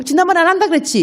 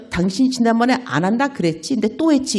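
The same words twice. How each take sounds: First: Much higher, reproachful "지난번에 안 한다 그랬지?"; hammed-up nagging with "한다" stressed and falling; mock nagging. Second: Said in the usual way. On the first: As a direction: throw "지난번에 안 한다 그랬지?" back as a high accusing jab. Repeats the nagging line.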